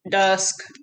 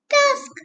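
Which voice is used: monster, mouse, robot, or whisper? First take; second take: robot; mouse. First: It is said in a flat, mechanical voice. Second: It is said in a tiny, squeaky voice. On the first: "Can you say it in a robot voice?" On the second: "Can you say it in a mouse voice?"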